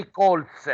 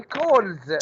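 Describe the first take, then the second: First: "colts" with a hissed S ending instead of Z; teacher demonstrates the wrong "colts", ending on a sharp S; wrong plural ending. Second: "calls" ending in a buzzing Z sound; correct Z ending. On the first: Teacher showing students the wrong plural, "colts" with a hissed S. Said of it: "don't say". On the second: Teacher giving the class the right plural, "calls" ending in Z. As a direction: say "calls" with a clear voiced Z at the end. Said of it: "Say calls". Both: Shown as a demonstration.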